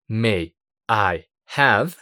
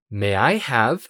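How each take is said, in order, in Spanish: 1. Cada palabra se dice por separado, con pausas. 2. Las palabras se unen y suenan como una sola. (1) "estas tres palabras" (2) "se pronuncian como una sola"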